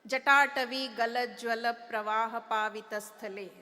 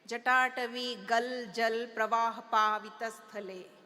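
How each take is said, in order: First: The short a vowels are fully pronounced. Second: The short a vowels are dropped.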